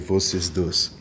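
It is pronounced the Yiddish way. "in Yiddish it'll be"

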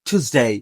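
It is said in an American accent. "American ইংলিশে"

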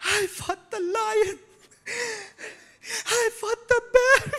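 It is said in a whiny, complaining tone.

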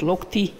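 The word ends in an 'i' vowel. This is the Izhma dialect form. "а у нас говорят «локти»"

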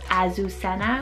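It is said the English way, with a strong z.

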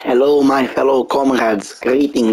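It is spoken in a Russian accent.

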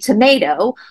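Tomato is said in an American accent. "here in America, we say"

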